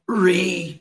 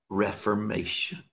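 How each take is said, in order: First: The word is said very loudly, like thunder. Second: The word is said at normal volume.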